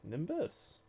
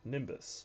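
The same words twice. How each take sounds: First: The word is said in a curious tone. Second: The word is said in a serious tone. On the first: "you can have it curious" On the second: "you can have it serious"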